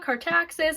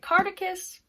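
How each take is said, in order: First: The name ends with an 'axis' sound. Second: The name ends with an 'icus' sound. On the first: The speaker calls it right. "It's called Cartaxis" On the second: The speaker calls it wrong. "I kept pronouncing it Cardicus"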